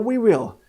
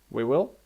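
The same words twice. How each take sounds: First: It is said in a bright, upbeat tone. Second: It is said in a flat, unenthusiastic tone.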